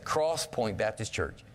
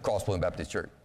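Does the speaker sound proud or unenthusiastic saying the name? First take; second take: proud; unenthusiastic. First: The name is said proudly and with energy. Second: The name is said flatly and without enthusiasm. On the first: The speaker is proud of the church. The speaker calls it right. "I always say it like this" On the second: The speaker does not care much about the church. The speaker calls it wrong. "what message did I just send?"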